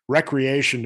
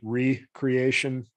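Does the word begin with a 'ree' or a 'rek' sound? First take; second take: rek; ree. First: The first syllable is said as a short 'rek'. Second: The first syllable is said as a long 'ree'. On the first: Leisure activity done for fun. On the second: A renewal, a creating again.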